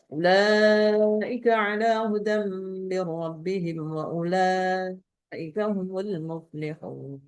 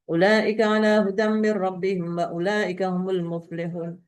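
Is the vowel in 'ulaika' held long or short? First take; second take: long; short. First: The vowel before the hamza in ulaika is long. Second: The vowel before the hamza in ulaika is short. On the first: The speaker calls it right. "Harus begitu" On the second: The speaker calls it wrong. "Enggak ada imam yang membaca pendek seperti itu"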